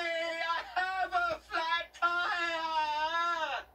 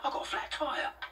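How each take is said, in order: First: It is said dramatically, with urgency. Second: It is said calmly, without drama.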